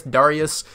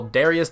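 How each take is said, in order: First: Darius said as "DAR-ee-us"; first syllable of Darius rhymes with "car"; habitual pronunciation. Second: Darius said as "DAIR-ee-us"; first syllable of Darius rhymes with "air"; alternate pronunciation. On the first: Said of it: "I've always just said Darius". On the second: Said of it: "said that it's pronounced Darius". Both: Shown as a demonstration.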